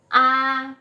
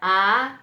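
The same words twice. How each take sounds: First: The pitch stays level. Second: The pitch rises. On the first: "nada satu tuh a" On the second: "nada dua a naik ya"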